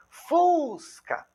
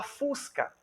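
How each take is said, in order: First: "Fusca" with FUS stretched long and high; stress on FUS. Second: Said in the usual way. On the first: Shown as a demonstration. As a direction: lean hard on the first syllable of "Fusca", raised pitch. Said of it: "qual é a energia expiratória que você tem na sílaba". ("Fusca" com FUS agudo, alongado e enfático) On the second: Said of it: "Quando você vai falar fusca".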